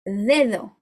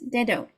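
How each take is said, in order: First: The d is a soft th-like sound. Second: The d is a hard English d. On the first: The speaker calls it right. "No, it's not dedo, dedo" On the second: The speaker calls it wrong. "English speakers, they will often read it like this"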